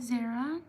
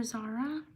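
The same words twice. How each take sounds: First: "Zara" said ZAIR-uh; "Zara" with an "air" vowel, rising; alternative pronunciation. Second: "Zara" said ZAR-uh; "Zara" as ZAH-ruh, offered as a question; alternative pronunciation. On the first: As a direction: say "Zara" to rhyme with Sarah. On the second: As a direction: say "Zara" with an open "ah" first vowel. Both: Shown as a demonstration. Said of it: "or Zara".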